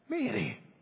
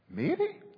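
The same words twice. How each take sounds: First: The name is said in a frustrated way. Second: The name is said in a questioning way. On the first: "Or maybe frustration" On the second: "Or maybe questioning"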